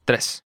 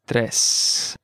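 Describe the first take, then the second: First: Said in the usual way. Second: "Tres" drawn out slowly; slow model. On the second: Shown as a demonstration. Teacher modelling vocabulary for learners, slow "Tres". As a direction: stretch out each sound of "Tres".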